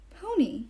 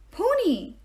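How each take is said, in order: First: Small, high, longing whimper; hesitant, higher-pitched little plea; timid whimper. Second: High, delighted exclamation; thrilled, much higher-pitched burst; rapturous cry. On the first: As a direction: whimper it shyly, wanting to come closer. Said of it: "He whimpered like he wanted to pet". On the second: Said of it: "he cried in total rapture". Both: A narrator's reading.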